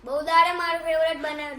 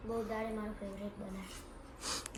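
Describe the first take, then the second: First: Louder, fast, on request; louder repeat after being told to speak up. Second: Much lower and softer, rushed mumble; barely audible mumble over food; soft fast mumble before being told to speak up; mumbled softly. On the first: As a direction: speak up clearly this time. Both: Real, not acted. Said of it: "જોરથી બોલ".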